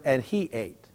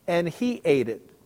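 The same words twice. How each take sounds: First: "he" stressed, very soft and low; quiet final weight on "he". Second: "he" leaned on and dropped softly; weight on "he" in "and he ate it"; stress on he. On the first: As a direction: press "he" in "and he ate", trailing off. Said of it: "Eugene Peterson". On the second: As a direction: let "he" carry the point, falling. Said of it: "Did you notice that". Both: Shown as a demonstration.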